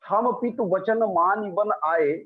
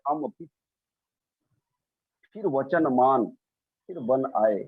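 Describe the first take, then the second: First: The line runs on without internal pauses. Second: Pauses split the line into three chunks. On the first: We came to the forest obeying our father's word. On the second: I am the father; accept this word; we came in this form.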